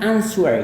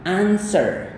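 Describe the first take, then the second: First: A w sound is heard in the middle. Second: No w sound is heard in the middle. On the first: The speaker calls it wrong. "bukan answer ya" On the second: The speaker calls it right. "Kayak gini"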